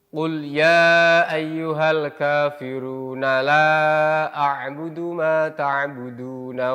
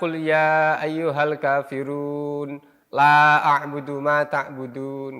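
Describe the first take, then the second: First: The word-final vowels are pronounced at verse ends. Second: The word-final vowels are dropped at verse ends. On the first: The speaker calls it right. "harokatnya terbaca semuanya" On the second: The speaker calls it wrong. "tidak boleh dibaca"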